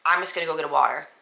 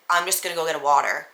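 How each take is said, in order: First: Flat, fast, a little softer; deadpan repeat of the water line; monotone. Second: Flat, fast monotone delivery; deadpan monotone water line. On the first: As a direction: drone it out without feeling. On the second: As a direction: say it dead flat and quick. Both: Retold or imitated. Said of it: "the most monotone voice".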